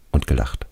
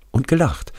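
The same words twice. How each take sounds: First: Said in the usual way. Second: Hoher, gekränkter Einwurf; ängstlicher toter Schulfreund. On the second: Acted. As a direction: als toter Freund den Vorwurf einwerfen, deutlich höher. Radi adds, narrator echoes. (hoch und vorwurfsvoll)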